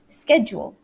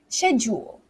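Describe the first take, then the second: First: It is said with an American pronunciation. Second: It is said with a British pronunciation. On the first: "I say schedule, which is the American way" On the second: "but the British way is schedule"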